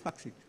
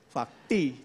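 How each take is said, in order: First: The word ends with a 'ksi' sound. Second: The word ends with a 'kti' sound. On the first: The speaker calls it wrong. "Mahkamah Agung salah bilang udah faksi" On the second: The speaker calls it right. "Fakti, tidak pakai E"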